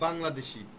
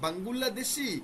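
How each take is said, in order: First: Said the Bengali way, without extra vowels. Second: Said the Korean way, with extra vowels inserted. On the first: The speaker calls it right. "তখন আপনি বলবেন বাংলাদেশি" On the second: The speaker calls it wrong. "ও যখন আপনাকে বলবে বাঙ্গুল্লাদেশি"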